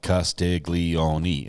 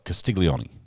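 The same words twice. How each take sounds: First: The name ends with a sounded final vowel. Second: The name ends without a final vowel sound. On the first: The speaker calls it wrong. "You don't like" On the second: The speaker calls it right. "It's more like ... No E on the end"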